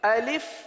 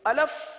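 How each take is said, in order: First: The second vowel is a short i sound. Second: The second vowel is an a sound. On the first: The speaker calls it right. "तो अलिफ को इस तरह पढ़ेंगे" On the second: The speaker calls it wrong. "बाज इस तरह भी पढ़ देते हैं।"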